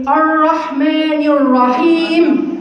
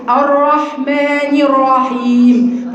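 First: الرحمن الرحيم with the r swallowed into a lisp; slow demo of the lisped r in الرحيم. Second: الرحمن الرحيم with a clear tongue-tip r; slow, careful correct r in الرحيم; correct r demo. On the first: Teacher shows student's wrong r, slow lisp. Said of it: "في ناس بتلدغها". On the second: Teacher gives student the right r, slow. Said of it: "بتتنطق". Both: Shown as a demonstration.

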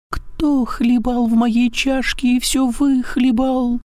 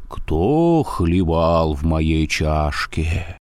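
First: Very high slow squeak; squeaky thin voice. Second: Slow, low, scary bear roar; growling bear. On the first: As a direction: squeak like a tiny bear cub. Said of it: "запищал тоненьким голосом". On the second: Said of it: "заревел страшным голосом". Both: A narrator's reading.

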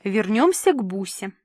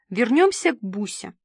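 First: Confident on-air repeat; boldly repeated. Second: Firm, measured prompt; crisply enunciated. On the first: Host relays the director's cue to the guest, bold. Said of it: "повторила смело". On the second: Director prompts the host through the earpiece, crisp. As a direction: enunciate the cue distinctly. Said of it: "отчеканила Ирка". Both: A narrator's reading.

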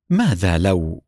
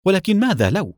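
First: Low, troubled, a touch of distress; قلق مكتوم. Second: Higher, insistent interruption; بإصرار وبصوت أعلى. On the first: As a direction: ask it heavy with worry. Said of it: "بصوت يبدو عليه الضيق". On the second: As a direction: cut in and press the question. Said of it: "فقاطعته والدتي بإصرار". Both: A narrator's reading.

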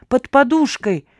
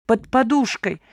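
First: "Под подушкой!" repeated higher and louder, more frantic; second "Под подушкой!" shouted higher, frantic old man; crying out louder. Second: Crying out. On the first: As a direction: push "Под подушкой!" up as panic grows. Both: A narrator's reading. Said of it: "вскричал старичок".

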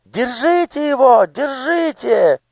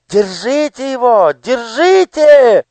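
First: Much higher, slow shriek; piercing yell. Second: Much higher and louder, slow shriek; shrill yell. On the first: Daughter yelling from the garden, piercing shriek. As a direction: shriek after them from the garden. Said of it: "пронзительный голос Анидак". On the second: Daughter screaming after the fleeing girl, shrill yell. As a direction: shriek after her to catch her. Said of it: "визгливо закричала ей вслед Анидак". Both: Acted.

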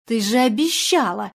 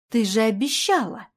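First: Louder, sharp rebuke on обещала; sharp scolding shout. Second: Reproachful. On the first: Woman scolds the panicking actress, sharp raised-voice rebuke. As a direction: snap at her to stop the scene. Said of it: "прикрикнула на неё Надежда". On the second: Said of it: "повторила она укоризненно". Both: A narrator's reading.

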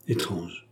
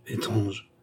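First: A low, soft murmur to himself. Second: Soft repeated murmur, falling away. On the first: Count murmuring alone in his study, low and soft. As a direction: breathe the word low and quiet, puzzled. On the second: Count repeating it to himself, soft falling murmur. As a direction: let the echo sink softer, half to himself. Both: A narrator's reading. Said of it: "murmura monsieur de Kergaz".

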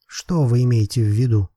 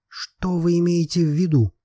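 First: Said in the usual way. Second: Higher, insistent repeated question; stubborn. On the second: A narrator's reading. Lobetsky repeats his question to Miroslava, stubborn. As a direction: dig in stubbornly, pitch raised. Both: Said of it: "повторил Лобецкий упрямо".

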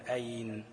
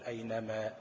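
First: أين cut at the noon, shown as not allowed; wrong stop on أين. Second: أينما said whole, stopping on the final alif of ما; أينما ending cleanly on the alif, the allowed stop; correct stop on أينما. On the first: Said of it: "لا، ما ينفعش". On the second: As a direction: carry through to ما and stop only there. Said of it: "على الألف بتاعت ما". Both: Shown as a demonstration.

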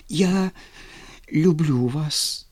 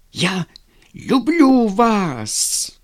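First: Said in the usual way. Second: Slow, loud, high angry insistence on люблю; angry repeat. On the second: A narrator's reading. Vladimir repeating his love to Lizonka, slow angry insistence. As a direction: repeat it through anger, dragging each word. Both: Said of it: "зло повторил он".

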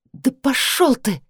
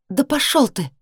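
First: Slow, higher, each word ground out; a touch of gritted fury; said through teeth. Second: Higher, angry repeat; angry retort. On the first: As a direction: spit it at him slowly. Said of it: "процедила я". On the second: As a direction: fling it back at him. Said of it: "повторила я". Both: A narrator's reading.

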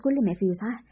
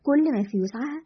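First: Said in the usual way. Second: Mildly scornful rising question; sarcastic echo. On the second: A narrator's reading. Adel mocking the defence of Ghada, mildly sarcastic. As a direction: echo it back with understated sarcasm. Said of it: "عادل بتهكم".

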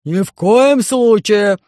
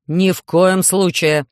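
First: Громовой крик, громче, выше и очень медленно; рявкни запрет; кричит басом. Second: Испуганный запрет, медленно; резко останови дочь; кричит. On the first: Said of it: "закричал Громозека". (Громозека громко кричит на Алису) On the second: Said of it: "закричал Селезнёв". (профессор кричит на дочь) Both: Acted.

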